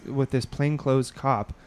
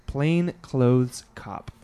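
First: "plainclothes cop" said slowly and cleanly; careful, slowed "plainclothes cop"; said right. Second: "plainclothes cop" said very slowly and carefully, every sound clear; slow, deliberate "plainclothes cop" to get it right; careful correction. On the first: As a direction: pronounce "plainclothes cop" clearly, without slurring. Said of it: "I said it right this time". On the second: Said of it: "Uh, plains". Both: Shown as a demonstration.

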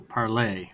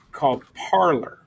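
First: Parler said as par-LAY, French style; French pronunciation. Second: Parler said as PAR-ler, like parlor; English pronunciation. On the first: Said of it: "Oh, that's true". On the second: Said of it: "P A R L E R". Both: Shown as a demonstration.

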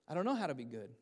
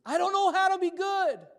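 First: Said in the usual way. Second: Very high, loud mock wail; hammed-up, full-volume childish outcry; dramatic child's wail. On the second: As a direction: imitate your son wailing in despair. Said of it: "can make anything more dramatic".

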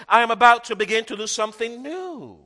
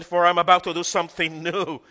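First: "I am about to begin" lifted high and loud, every word pressed; emphatic scripture line. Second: "For I'm about to do something new" in an even preaching voice; old reading. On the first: Preacher to congregation, stressing the verse, raised and loud. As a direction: declare it, leaning on "about to begin". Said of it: "the emphasis of the whole verse was". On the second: Preacher recalling the old reading to church, plain emphasis. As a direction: read it as the old familiar verse. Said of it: "no longer, but rather to emphasize". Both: Shown as a demonstration.

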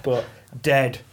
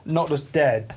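First: DEAD slow and drawn out; stress on DEAD. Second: Said in the usual way. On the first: Shown as a demonstration. Annoyed door holder wishing someone gone, DEAD heavily drawn out. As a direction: lean slowly on the word dead for finality. Second dead means more dead.

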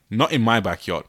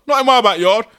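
First: Said in the usual way. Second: Not in my backyard, loud and high, rising at the end; indignant shout. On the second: Shown as a demonstration. Podcaster acting an angry neighbour, loud high shout. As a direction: bellow it like an outraged neighbour. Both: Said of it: "N I M B Y".

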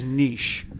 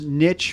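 First: Second niche as "neesh", long ee; contrasted pronunciation. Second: First niche as "nitch", short i; preferred pronunciation. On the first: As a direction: say niche with soft sh ending. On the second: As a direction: say niche to rhyme with pitch. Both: Shown as a demonstration. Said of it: "this niche versus niche".

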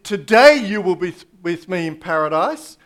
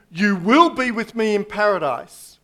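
First: "Today" hit loud at the start, the rest easing off; stress on today. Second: "You will be" leaned on as the start of the promise, falling at the end; stress on will. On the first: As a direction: punch "Today", end rising on "paradise". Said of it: "The emphasis on today". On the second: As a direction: put the weight on "will" in "You will be". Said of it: "as the emphasis". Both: Shown as a demonstration.

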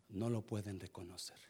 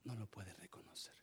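First: Said in the usual way. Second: Much softer, barely voiced "No lo pueden reconocer"; hushed repeat. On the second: Shown as a demonstration. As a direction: drop to a hush on the echo. Repeats line, second much softer. (repetición en voz muy baja)

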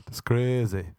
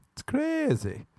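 First: Said in the usual way. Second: "It's crazy" jumped much higher, squeaked. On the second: Pretend. Repeats the line higher.

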